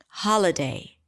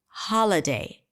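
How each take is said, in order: Both takes have the same delivery.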